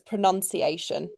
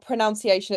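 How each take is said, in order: First: The second syllable sounds like 'nun'. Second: The second syllable sounds like 'noun'. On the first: The speaker calls it right. "it does not have an O U in it" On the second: The speaker calls it wrong. "it's not pronunciation"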